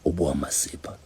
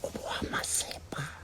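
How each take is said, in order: First: It is said in a low voice. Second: It is said in a whisper.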